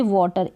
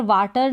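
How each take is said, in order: First: वाटर with a rounded "aw", "wɔːtar"; correct pronunciation. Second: वाटर with a flat "aa", like "vaatar"; wrong pronunciation. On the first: Teacher gives students the right way, rounded o. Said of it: "pronounce करेंगे वाटर". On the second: Teacher shows the wrong way to say water, flat aa. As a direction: say वाटर wrongly as "vaa-tar" with an open a. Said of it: "यहाँ पर वाटर नहीं पढ़ेंगे हम". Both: Shown as a demonstration.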